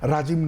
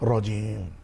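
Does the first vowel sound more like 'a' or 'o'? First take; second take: a; o. First: The first vowel sounds thin, like 'a'. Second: The first vowel sounds full, like 'o'. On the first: The speaker calls it wrong. "রাজিম নয়" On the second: The speaker calls it right.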